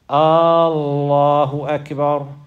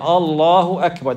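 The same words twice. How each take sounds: First: The first vowel of Allah is drawn out long. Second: The first vowel of Allah is kept short. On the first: It asks whether God is greater. The speaker calls it wrong. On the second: It states that God is greater. The speaker calls it right.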